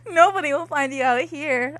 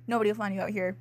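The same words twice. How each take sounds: First: Failed serious tone. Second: Deadpan sinister line; mock menacing. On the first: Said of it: "faking a serious tone". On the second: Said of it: "making a serious tone". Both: Shown as a demonstration.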